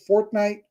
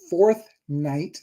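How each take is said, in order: First: The name is run together without a clear 'th'. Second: The name is said carefully with a clear 'th'. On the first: The speaker calls it wrong. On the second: The speaker calls it right.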